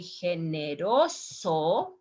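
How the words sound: It is said with a Spanish pronunciation. The speaker calls it right. "here the pronunciation is different"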